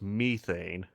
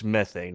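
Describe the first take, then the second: First: It is said with a British accent. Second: It is said with an American accent.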